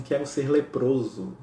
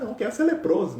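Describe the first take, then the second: First: Slow, solemn retold request; understated tearful plea. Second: Casual mock request, pitched up high; joking. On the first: Francis tearfully asking Jesus, solemn and slow. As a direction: say it slowly and earnestly, dry-eyed. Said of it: "com os olhos em lágrimas". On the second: Imagined believer asking Jesus for illness, joking. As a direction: toss it off as a playful joke. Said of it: "Tô brincando".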